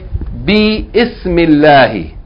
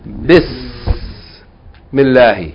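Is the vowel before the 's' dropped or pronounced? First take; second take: pronounced; dropped. First: A separate 'i' vowel is pronounced before 's'. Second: The words join with no vowel before 's'. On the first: The speaker calls it wrong. "We don't say bi ismillahi" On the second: The speaker calls it right. "We say bismillahi"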